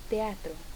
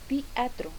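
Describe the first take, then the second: First: The e is said as a clear e. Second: The e is closed so it sounds like i. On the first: The speaker calls it right. "cuando debería decir" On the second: The speaker calls it wrong. "En cierre de la vocal E... hasta pronunciarse prácticamente como una I"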